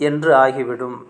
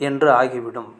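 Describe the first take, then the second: Both takes have the same delivery.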